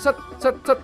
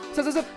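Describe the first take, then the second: First: The words are separated by clear pauses. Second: The words run together quickly without pauses.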